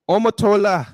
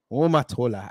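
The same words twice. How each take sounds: First: Put-on "Omotola" loud and high in an African accent; "Omotola" said louder and higher in an African accent; African accent name. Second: Put-on "Omotola" said low and even in an African accent; "Omotola" lower and calm in an African accent; African accent name. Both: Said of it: "we will do it in the African accent".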